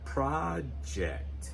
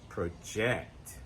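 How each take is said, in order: First: The stress is on the first syllable. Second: The stress is on the second syllable.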